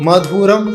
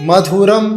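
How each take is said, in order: The two takes are said the same way.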